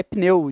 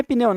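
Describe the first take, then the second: First: "pneu" in one single impulse of voice; p straight into n in "pneu"; correct one-syllable pneu. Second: "pneu" loosened into pi-neu; relaxed wrong pneu. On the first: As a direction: say "pneu" with no vowel between p and n. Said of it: "de fato". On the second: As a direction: say "pneu" as two syllables, "pi-neu". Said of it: "Não é pneu não". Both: Shown as a demonstration.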